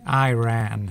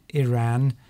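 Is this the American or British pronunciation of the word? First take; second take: American; British. First: It is said in an American accent. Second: It is said in a British accent. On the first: "Americans tend to say Iran" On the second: "I think if you're English, you would pronounce it Iran"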